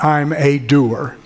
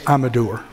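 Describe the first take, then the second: First: The word doer is broken into two parts. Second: The word doer is said as one unit. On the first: The speaker calls it wrong. "Not I'm a doer" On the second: The speaker calls it right. "That's one word"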